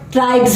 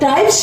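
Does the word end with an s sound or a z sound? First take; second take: z; s. First: The word ends with a z sound. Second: The word ends with an s sound. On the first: The speaker calls it right. "एस का उच्चारण ज हो जाता है" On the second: The speaker calls it wrong. "ना होकर"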